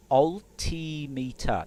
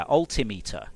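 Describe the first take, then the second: First: ALTIMETER stretched out very slowly, syllable by syllable; drawn-out pronunciation. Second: Said in the usual way. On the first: Shown as a demonstration. Testing how to say the word, "Altimeter" drawn out slowly. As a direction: sound out "Altimeter" slowly with a long, raised "tee". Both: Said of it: "pronunciation and cadence and stresses".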